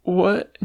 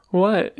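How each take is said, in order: First: Louder question with a touch of panic; panicked. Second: Louder, higher, puzzled question; confused. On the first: Boy hears his apology called phony, mildly panicked. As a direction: let mild alarm lift the word. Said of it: "panic enveloping him". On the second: Boy reacts to the mother's expectant look, confused. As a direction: blurt it in confusion. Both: A narrator's reading.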